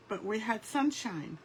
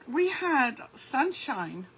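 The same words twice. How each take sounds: First: Said in the usual way. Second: "We had sunshine" drawn out slowly, leaning on "We"; slow emphasis. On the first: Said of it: "repeats the point plainly". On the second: Real, not acted. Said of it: "repeats the point for emphasis".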